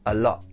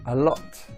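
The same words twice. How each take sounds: First: The final t is replaced by a glottal stop. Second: The final t is clearly pronounced as a t. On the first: "the second time I'll use the glottalization, so without the t" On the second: "the first time I'll say a word, I'll use the t"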